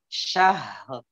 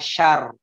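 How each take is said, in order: First: A breathy h is followed by an added r. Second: The word ends with r and no h. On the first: The speaker calls it right. "Yang benar syahr" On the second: The speaker calls it wrong. "ada yang membacanya syar"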